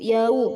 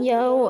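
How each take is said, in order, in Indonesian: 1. Kata ini berakhir dengan bunyi vokal 'u'. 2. Kata ini berakhir dengan bunyi vokal 'o'. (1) "bacaannya u yau" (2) "bukan yao ya, bukan o"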